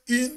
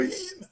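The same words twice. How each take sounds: First: Said in the usual way. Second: "in" with an h put on the front, "hin"; Jamaican pronunciation. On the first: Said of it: "Most Jamaicans don't say in". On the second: Shown as a demonstration. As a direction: breathe an h before "in": "hin". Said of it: "they tell you in".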